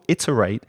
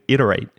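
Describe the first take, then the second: First: The middle T is a clear, crisp T. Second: The middle T is a quick D-like flap. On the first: "I taught iterate with my t, with my English t" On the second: "in connected speech with that with that t you're describing"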